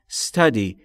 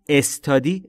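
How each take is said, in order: First: The word starts directly with the s sound. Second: The word starts with a vowel before s. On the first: The speaker calls it right. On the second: The speaker calls it wrong.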